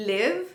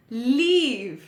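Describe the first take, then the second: First: "Live" with a short i, rising. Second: "leave" with a long ee, falling. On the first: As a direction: keep the vowel brief in "Live". ("Live" में छोटी इ की मात्रा) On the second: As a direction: stretch the vowel in "leave". ("leave" में बड़ी ई की मात्रा) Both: Shown as a demonstration. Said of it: "The next pair is".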